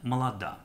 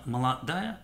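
First: Contracted northern form without the final syllable. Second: Full standard form with the final syllable.

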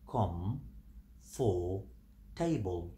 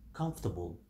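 First: The syllables are said separately with pauses. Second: The syllables are joined smoothly into one word. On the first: "divide it. We have com, we have for, and we have table" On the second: "But we pronounce it comfortable"

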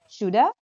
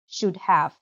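First: The word 'have' is reduced to a schwa. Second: The word 'have' is said in full.

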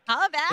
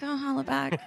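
First: It is said loudly with lots of energy. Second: It is said quietly with little energy.

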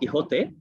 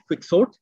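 First: The name has a Spanish-style pronunciation. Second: The name has an English-style pronunciation. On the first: "I've been pronouncing it as Don Quixote" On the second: "the spelling in English is slightly different. It's Quixote, and we all would have heard it as Quixote"

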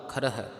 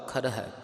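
No difference in how they are said.

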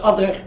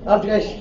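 First: The name ends with a rough 'kh' sound. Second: The name ends with a soft 'sh' sound. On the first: The speaker calls it wrong. "مش ألدريخ" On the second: The speaker calls it right. "ألدريش مش ألدريخ"

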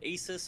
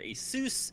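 First: The ending does not rhyme with Seuss. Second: The ending rhymes with Seuss.

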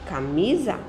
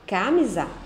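First: The stress falls on the middle syllable. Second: The stress falls outside the middle syllable. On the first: The speaker calls it right. "Ok. ... mi é a sílaba mais forte" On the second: The speaker calls it wrong. "Não"

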